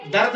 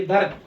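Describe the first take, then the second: First: दर्द as commonly said, in one syllable; common pronunciation. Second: दर्द read carefully with a stopped r; taught pronunciation. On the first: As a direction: say दर्द plainly, as written. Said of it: "तो हम इसको". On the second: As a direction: close firmly on the र of दर्द. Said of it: "एक जज़म डालेंगे". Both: Shown as a demonstration.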